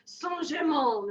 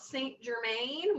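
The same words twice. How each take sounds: First: It is said with an exaggerated French accent. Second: It is read as spelled, with English sounds. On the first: The speaker calls it right. "I will only be saying it in an obnoxious French accent" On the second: The speaker calls it wrong. "actually spelled Saint Germain, which is kind of how I thought it was said"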